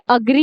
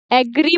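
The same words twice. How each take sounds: First: अग्री opening on a short a sound; correct pronunciation. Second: एग्री with an E sound at the start; wrong pronunciation. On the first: Teacher correcting students, short a in अग्री. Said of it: "एग्री नहीं है". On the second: Teacher showing students the common mistake, wrong E sound. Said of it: "अग्री को एग्री बोल देते हैं". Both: Shown as a demonstration.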